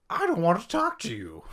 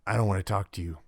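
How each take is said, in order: First: Crazy voice, very high and loud; over-the-top cartoonish brush-off; Jenkins. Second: Understated, guarded brush-off; lightly voiced character shutting down the conversation; unforthcoming NPC. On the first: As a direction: refuse to talk as a ridiculous, hammed-up character. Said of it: "unless you just use a crazy voice". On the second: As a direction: decline to talk, with no show. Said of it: "if all you get from a character".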